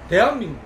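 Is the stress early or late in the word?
early. The stress falls early in the word. "근데 경북 대구는 대한민국. 강세를 앞에 대고"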